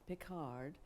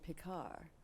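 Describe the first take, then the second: First: The final consonant is pronounced. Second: The final consonant is silent.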